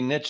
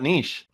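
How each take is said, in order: First: It is said to rhyme with rich. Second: It is said not rhyming with rich. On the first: The speaker calls it right. "it's got to be niche" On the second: The speaker calls it wrong. "not niche"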